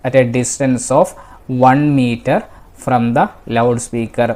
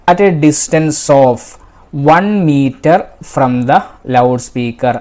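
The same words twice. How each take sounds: The two takes are said the same way.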